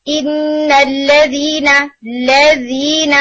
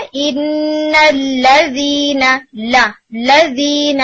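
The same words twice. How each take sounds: First: الَّذِينَ said slowly with lips barely open, fatha lost; incorrect fatha. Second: Slow الَّذِينَ with the lips clearly opening on لا; correct fatha. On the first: Retold or imitated. Teacher mimics students' wrong reading of الَّذِينَ. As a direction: imitate the student mumbling الَّذِينَ without opening the lips. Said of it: "is incorrect sound of فتحہ". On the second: Shown as a demonstration. Teacher shows students the right reading of الَّذِينَ. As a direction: stretch out لا in الَّذِينَ, lips open up and down. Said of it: "آپ نے اسے کیسے پڑھنا ہے؟".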